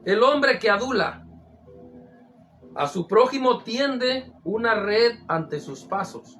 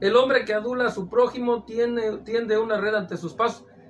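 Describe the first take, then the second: First: It is read with pauses at the phrase breaks. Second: It is read run together without pauses.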